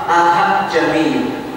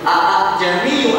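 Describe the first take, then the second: First: The second glottal catch becomes a full h. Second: The second glottal catch is fully pronounced. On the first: "tidak boleh dengan bacaan sampai ke huruf H"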